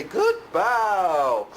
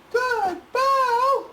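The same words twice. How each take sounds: First: Said in the usual way. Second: Very high, delighted praise; squeaky happy praise; dog praise. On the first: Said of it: "and say". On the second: Real, not acted. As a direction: gush over the pup. Praising the dog right after.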